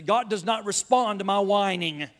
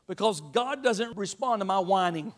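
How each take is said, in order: First: "does not" split apart, "not" hit firmly; stress on not. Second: Said in the usual way. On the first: Shown as a demonstration. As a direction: spell out "does not" with weight on "not". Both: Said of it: "I'm gonna try that again".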